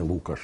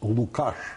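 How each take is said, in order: First: The stress is on the first syllable. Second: The stress is on the second syllable. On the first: The speaker calls it wrong. "а не Лукаш, як дехто сьогодні чомусь звик казати" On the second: The speaker calls it right. "Я повторюю наголос Лукаш"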